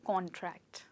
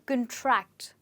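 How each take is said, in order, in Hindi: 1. ज़ोर पहले अक्षर पर है। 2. ज़ोर दूसरे अक्षर पर है। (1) "स्ट्रेस रहेगा फर्स्ट पार्ट पे" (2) "स्ट्रेस आ जाएगा सेकेंड पार्ट पे"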